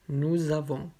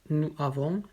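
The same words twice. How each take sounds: First: The final consonant links into the next word. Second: The words are said separately, with no linking. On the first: The speaker calls it right. "après avec la liaison" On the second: The speaker calls it wrong. "d'abord sans la liaison"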